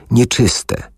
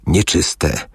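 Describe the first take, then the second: First: Higher, dry rasping shout of the warning; dry hoarse cry. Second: Dry hoarse cry. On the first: Leper woman warning off a stranger, with a higher hoarse cry. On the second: Leper woman warning off a stranger, in a dry rasp. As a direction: rasp out the warning to keep her away. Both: Acted. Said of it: "zawołała oschłym, chrapliwym głosem".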